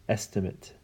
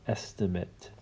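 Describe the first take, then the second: The two takes are said the same way.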